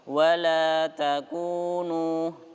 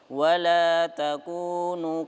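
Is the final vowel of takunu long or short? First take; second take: long; short. First: The final vowel is held for full length. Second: The final vowel is clipped short. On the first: The speaker calls it right. "dua harokat semua ya" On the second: The speaker calls it wrong. "Jangan sampai yang terakhir biasanya hilang ... jangan seperti itu"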